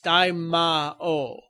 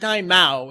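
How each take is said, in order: First: The 'ma' is said as its own syllable. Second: The 'ma' runs together with the following 'o'. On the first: The speaker calls it right. "The Ma in there is kind of separate" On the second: The speaker calls it wrong. "It's not Daimao"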